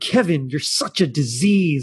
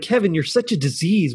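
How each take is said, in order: First: It is said in a mean, emphatic way. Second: It is said in a mild way.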